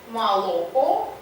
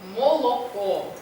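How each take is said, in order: First: The first unstressed o is reduced to a short vowel. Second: Every o is pronounced as a full o. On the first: This is the partial okanye of other northern dialects. "при неполном" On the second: This is the full okanye of the Arkhangelsk dialects. "полное оканье"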